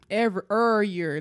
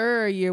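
First: Put-on St. Louis accent, "Every" then "er year" with the "Every" clipped to "er". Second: Put-on St. Louis accent, "Er year" with a clipped "er" for "every". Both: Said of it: "Let me bring out my Saint Louis accent".

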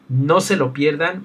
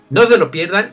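First: Said in the usual way. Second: Higher, louder, emphatic plea. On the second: Real, not acted. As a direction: urge them hard, raising the voice. Repeated closing plea, louder.

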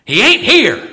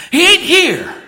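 First: Loud, high East Tennessee drawl; Don's East Tennessee drawl. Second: Much higher, loud East Tennessee drawl; Don's East Tennessee drawl, even higher. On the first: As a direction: boom it from the pulpit in a Southern preacher's East Tennessee drawl. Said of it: "in his wonderful East Tennessee drawl". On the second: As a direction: ring it out again in East Tennessee drawl, climbing way up. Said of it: "Don said". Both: Retold or imitated.

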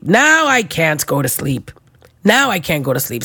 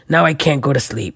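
First: Slower, drawn-out complaint; slow, dragged complaint; slow lament. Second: Said in the usual way. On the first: Shown as a demonstration. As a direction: stretch it out in weary dismay. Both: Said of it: "repeated lament".

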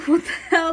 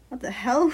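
First: Laughing it out, higher and louder; flustered laughing disbelief; nervous laugh. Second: Said in the usual way. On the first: Acted. Narrator's racing inner thoughts after being called cute, nervous laugh. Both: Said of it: "in my head, my thoughts are buzzing".

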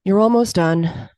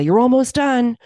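First: Slow, sighing reassurance; weary resignation. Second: Higher, lifted cheer; helpful encouragement. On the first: Spectator to a runner on the track, wearily resigned. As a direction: say it slowly, as if given up on them. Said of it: "tone in which they were said". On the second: Spectator to a runner on an unknown course, encouragingly. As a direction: call it out to lift a runner. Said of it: "very helpful for me to hear". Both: Retold or imitated.

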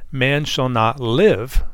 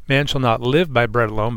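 First: Slow, leaning hard on "live"; weighty slow stress on "live". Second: Said in the usual way. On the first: Shown as a demonstration. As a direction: draw out "Man shall not live" and land on "live". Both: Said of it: "emphasizing that word live".

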